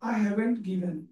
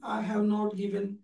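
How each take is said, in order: First: Have and not merge into one short word. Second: Have and not are said as two full words.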